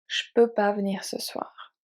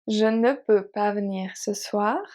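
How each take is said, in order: First: Ne is dropped and je becomes sh. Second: Je and ne are both said in full.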